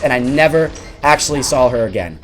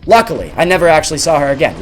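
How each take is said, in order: First: Said in the usual way. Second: Relieved, quicker. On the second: Real, not acted.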